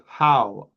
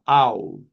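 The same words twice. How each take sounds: First: "How?" said with a clear breathy h at the start; clear h sound. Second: "Ow." said without the h, just the vowel; dropped h. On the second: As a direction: drop the h and say "Ow.". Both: Shown as a demonstration. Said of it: "Uh-uh".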